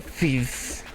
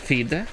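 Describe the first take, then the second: First: The ending is a soft, breathy sound. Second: The ending is a hard d sound. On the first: "where the H is more pronounced" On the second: "instead of"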